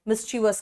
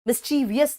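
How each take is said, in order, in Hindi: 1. इसमें तीन शब्दांश हैं, बिना अतिरिक्त 'ee' आवाज़ के। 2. इसमें चार शब्दांश हैं, अतिरिक्त 'ee' आवाज़ के साथ। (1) "मिस्चिवस कहते हैं" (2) "मिस्चीवियस नहीं बोलते हैं"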